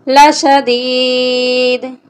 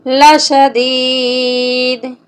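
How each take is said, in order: Both takes have the same delivery.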